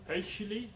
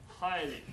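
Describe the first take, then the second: First: An 'ei' vowel with a throaty 'ch' sound. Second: An 'eye' vowel with no throaty sound. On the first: This is a later stage of the word's sound. "Hichli became Heichli" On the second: This is how the word is said today. "Heichli became highly"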